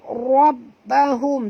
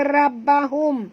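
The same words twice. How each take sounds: First: The r is pronounced heavy and thick. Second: The r is pronounced light and thin. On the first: The speaker calls it right. "tapi kena baca rabbahum, tebal ya" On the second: The speaker calls it wrong. "jangan baca rabbahum"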